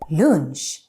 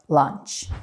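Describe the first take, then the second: First: It is pronounced with Swedish sounds. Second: It is pronounced with English sounds. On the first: "So we say lunch" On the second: "instead of lunch"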